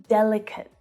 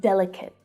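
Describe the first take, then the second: The two takes are said the same way.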